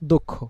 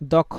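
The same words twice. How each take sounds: First: The first vowel sounds like 'o'. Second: The first vowel sounds like a plain 'a'. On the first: "এখন just অটাকে ও উচ্চারণ করবেন" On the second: "আপনি আগে বলতেন"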